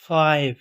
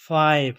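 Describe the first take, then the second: The two takes are said the same way.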